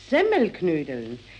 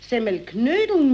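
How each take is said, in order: First: The stress is on Semmel. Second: The stress is on Knödeln.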